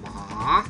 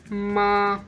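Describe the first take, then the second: First: The pitch dips down and then rises. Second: The pitch stays high and level. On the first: "it's a falling and rising tone" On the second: "There is a flat tone"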